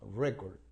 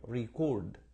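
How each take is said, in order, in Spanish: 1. El acento está en la primera sílaba. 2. El acento está en la segunda sílaba. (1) "lleva la fuerza de la pronunciación en la, en la primera sílaba" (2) "la fuerza de pronunciación está así en la, en la segunda sílaba"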